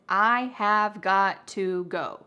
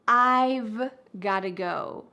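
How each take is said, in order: First: Every word is said in full. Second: 'I have' is contracted and 'got to' reduced. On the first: "The full grammatical expression is" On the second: "we often reduce this to"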